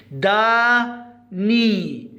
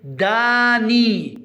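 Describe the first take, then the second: First: داني very slow, a gap between دا and ني; split syllables. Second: داني slow but joined up, vowels long; slow model word. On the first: Teacher isolating the syllable ني, داني very slowly split. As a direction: break داني into two drawn-out syllables. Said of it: "لاحظوا الملون باللون الأحمر عندنا ني". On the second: Teacher naming the pictured person, داني slow and joined. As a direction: say داني slowly as one word. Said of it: "ما اسمه؟". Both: Shown as a demonstration.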